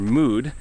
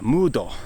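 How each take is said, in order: First: It is said with plain English pronunciation. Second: It is said Japanese-style with an added final vowel.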